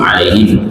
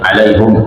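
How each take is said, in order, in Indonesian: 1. Suku kata terakhir diucapkan dengan vokal 'i'. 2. Suku kata terakhir diucapkan dengan vokal 'u'. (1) "yang biasa kita dengar bacaan hafaz dari Imam Asim" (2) "ada perbedaan lagi alaihum"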